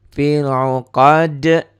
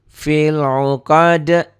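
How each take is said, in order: The two takes are said the same way.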